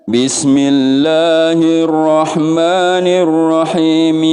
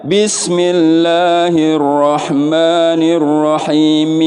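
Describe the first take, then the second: Both takes have the same delivery.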